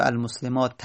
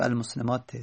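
First: المسلمات ending in a short "-ta", without tanvin; fatha ending. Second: المسلمات ending in a short "-te", without tanvin; kasra ending. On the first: Teacher showing case endings after al, المسلمات said with final "-ta". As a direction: end المسلمات on an open "-ta", no final n. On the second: Teacher showing case endings after al, المسلمات said with final "-te". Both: Shown as a demonstration. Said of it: "اگر ال آوردی تنوین نمیدی".

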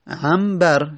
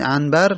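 First: عنبر with the n turned to m: ambar; as pronounced. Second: عنبر read as written, with a clear n: anbar. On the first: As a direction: say عنبر as ambar, lips closed before the b. (عنبر با میم: امبر) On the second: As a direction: say عنبر the way it is spelled, with n. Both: Shown as a demonstration.

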